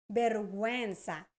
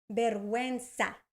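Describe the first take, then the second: No difference in how they are said.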